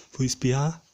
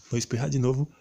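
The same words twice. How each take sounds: First: About to sneeze; holding back a sneeze. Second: Holding back a sneeze. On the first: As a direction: talk through a coming sneeze. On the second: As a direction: sneeze coming on again. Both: Real, not acted.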